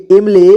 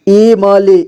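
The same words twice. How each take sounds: First: Said in the usual way. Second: इमली as इ-म-ली; syllable by syllable. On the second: Shown as a demonstration. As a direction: sound out इमली with "ma" on its own. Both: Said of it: "एक ही बार में पढ़ेंगे".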